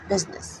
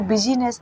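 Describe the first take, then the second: First: The middle i is silent, giving two syllables. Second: The middle i is pronounced, giving three syllables. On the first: The speaker calls it right. "आई को हम silent पढ़ते हैं" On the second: The speaker calls it wrong. "इसको बिजीनेस नहीं पढ़ते"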